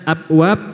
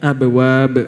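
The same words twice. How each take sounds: First: The middle b is held without a bounce. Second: The middle b is released with a bounce. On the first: The speaker calls it wrong. "itu nggak akan terdengar seperti huruf ba" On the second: The speaker calls it right. "ada qalqalahnya"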